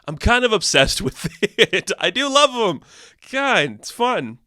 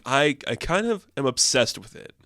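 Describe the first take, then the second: First: High, louder, giggly gushing; laughing. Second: Said in the usual way. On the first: Real, not acted. Vlogger admits loving the toxic pairing, laughing. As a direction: laugh through the confession.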